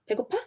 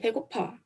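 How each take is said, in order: First: The pitch rises at the end. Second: The pitch falls at the end. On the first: It asks whether the listener is hungry. "when you increase the intonation at the end of the word" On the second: It says the speaker is hungry. "means I'm hungry"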